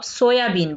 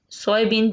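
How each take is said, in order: First: सोयाबीन as "so-ya-been"; three-part SO-ya-been for सोयाबीन; everyday local pronunciation. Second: सोयाबीन as English "soy-bean"; two-part English SOY-been for सोयाबीन; English pronunciation. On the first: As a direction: say सोयाबीन with a clear "ya" in the middle. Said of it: "जिसको आप सोयाबीन बोलते हो". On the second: जिसको आप सोयाबीन बोलते हो. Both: Shown as a demonstration.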